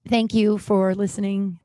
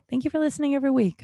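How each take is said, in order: First: Said in the usual way. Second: "Thank you for listening every week" rattled off fast and higher; fast, higher repeat of the thanks; quick higher thanks. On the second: Real, not acted. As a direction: rush the thanks with a lift.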